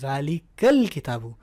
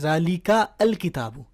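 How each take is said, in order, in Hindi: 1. 'al' पिछले शब्द में मिल जाता है। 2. 'al' को एक अलग अक्षर की तरह बोला जाता है। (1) "तो ये है ज़ालिकल किताबू, लिखा हुआ नज़र आएगा आपको, पढ़ा नहीं जा रहा" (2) "अगर मैं इसको पढ़ूँ ना तो ये बनेगा ... ऐसा तो नहीं हो रहा ना"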